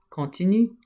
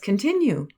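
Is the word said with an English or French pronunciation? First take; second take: French; English. First: It is said with a French pronunciation. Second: It is said with an English pronunciation. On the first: "It's the same word" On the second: "say it in an English way"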